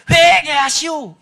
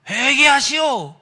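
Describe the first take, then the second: First: Big, slow, high shout; louder voice. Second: Slow, loud drawn-out call; voice from somewhere. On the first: Unseen voice calls a second time to the praying youth, shouting loudly. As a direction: boom it out, stretching the words. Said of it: "더 큰 목소리로". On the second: Unseen voice reaches a praying youth, calling out slowly. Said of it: "이런 음성이 들리더라는 겁니다". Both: Retold or imitated.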